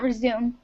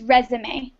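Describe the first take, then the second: First: It is pronounced like the verb resume. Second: It is pronounced like the noun résumé. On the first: It means to continue something. The speaker calls it wrong. "not resume" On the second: It names a document listing work history. The speaker calls it right. "the pronunciation is resume"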